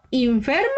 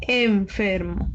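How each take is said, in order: First: "enfermo" said as "infermo", questioning rise; wrong trial vowel. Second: "enfermo" slowly, with a clear initial E, falling; correct first vowel. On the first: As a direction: test "enfermo" with an I at the start, as a question. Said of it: "No, ¿verdad?". ("enfermo" pronunciado "infermo", con tono de pregunta) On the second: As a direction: settle on "enfermo", E at the start, unhurried. ("enfermo" con E inicial, pausado y afirmativo) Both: Shown as a demonstration.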